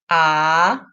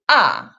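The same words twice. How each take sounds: First: The pitch rises from mid to high. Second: The pitch falls sharply from high. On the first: "The second tone, 二声" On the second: "The fourth tone, 四声"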